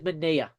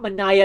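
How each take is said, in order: First: The middle of the name has no 'eye' sound. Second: The middle of the name has an 'eye' sound. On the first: The speaker calls it right. "it is Manea" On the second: The speaker calls it wrong. "It is not Manaya, ... You say that wrong. It will sound with the I sound"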